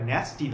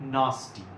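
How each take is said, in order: First: The first vowel is a flat 'a' sound. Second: The first vowel is an open 'ah' sound. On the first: The speaker calls it wrong. "এটা ন্যাস্টি নয়" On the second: The speaker calls it right. "এটা নাস্টি"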